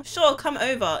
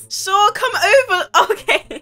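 First: Said in the usual way. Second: High, loud giggly reply; helpless laughter in the words; laughing agreement. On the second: Real, not acted. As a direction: say yes while cracking up. Agrees to flirty call, laughing.

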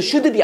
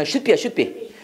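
First: Should be를 '슈드비'로 또박또박 풀어서; should의 d에 '으'를 붙인 should be; 잘못된 발음. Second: Should be를 '슛삐'로 짧게 붙여서; should의 d를 받침처럼 막고 be로; 받침으로 발음. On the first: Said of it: "이것도 should be 아니야". (should be, '슈-드-비' 한국식 발음) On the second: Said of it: "다 받침을 읽어야 돼". (should be, 두 박자 '슛-삐') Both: Shown as a demonstration.

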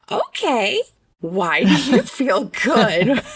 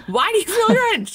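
First: Slow, drawn-out question with a laugh in it; careful incredulous question. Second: High-pitched incredulous blurt, amused; stunned question. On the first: Mom asking her son to explain himself, carefully incredulous. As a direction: stretch it out, amused and baffled. Retells composing herself to ask son. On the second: Mom reacting to her son's surprising answer, stunned. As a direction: ask it in high, baffled disbelief. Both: Retold or imitated.

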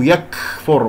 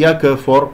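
First: "يكفر" with a long overdone puff after k; exaggerated breath. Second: "يكفر" with an extra echo vowel after k; wrong bounced kaf. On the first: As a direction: overdo the airy k in "يكفر", as a mistake. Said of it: "أو يكفر مبالغ". (همس مبالغ في كاف "يكفر") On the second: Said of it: "لا أقول يكفر قلقلة". (قلقلة خاطئة في كاف "يكفر") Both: Shown as a demonstration.

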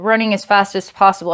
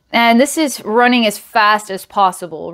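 First: Fast, breathless-paced repeat; rushed repeat. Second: Said in the usual way. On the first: Shown as a demonstration. Reader speeds up to echo the running. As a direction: rush it like you're running.

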